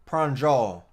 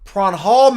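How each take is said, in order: First: The middle consonant is a J sound. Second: The middle consonant is an H sound.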